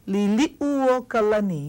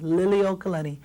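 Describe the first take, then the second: First: The u sound after Lili is pronounced. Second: The u sound after Lili is left out. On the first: The speaker calls it right. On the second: The speaker calls it wrong. "Everyone says Liliokalani. See this u? It gets left out"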